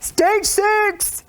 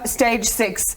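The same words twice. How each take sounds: First: It is said loudly and dramatically. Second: It is said flatly, without drama.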